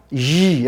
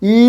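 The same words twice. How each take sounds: First: ই as a buzzing y consonant; drawn-out consonantal ই. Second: ই as a pure vowel, higher; wrong ই. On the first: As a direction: squeeze ই into a long frictional y. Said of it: "এটা consonant sound". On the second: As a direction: say ই as a plain "ee" with no friction. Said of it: "ই না". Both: Shown as a demonstration.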